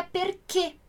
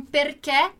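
First: "perché" with a closed final e, like ê; "perché" pronounced "per-KÊ". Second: Said in the usual way. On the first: Shown as a demonstration. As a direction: end "perché" on a tight "ê", not an open "é". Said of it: "Ele dá o som fechado". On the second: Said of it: "Lá as pessoas não dizem".

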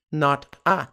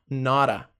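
First: "Not a" as two words, T sounded; unlinked words. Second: "not a" as one word, like nora; linked pronunciation. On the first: Teacher lays out the pattern, separated pronunciation. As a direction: keep Not and a apart. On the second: Teacher shows the pattern, linked pronunciation. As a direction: tap the T of not into a. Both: Shown as a demonstration. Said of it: "Padrão de pronúncia".

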